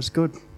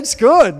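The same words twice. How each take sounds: First: It is said flatly, with indifference. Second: It is said with lively, joyful excitement. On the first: The goodness is taken for granted. The speaker calls it wrong. "it's kind of like, oh, it's good. Well, yeah, whatever" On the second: The creator takes great pleasure in the work. The speaker calls it right. "high-fiving each other going, woohoo, yeah, it's good"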